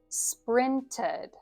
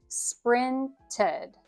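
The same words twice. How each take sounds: The two takes are said the same way.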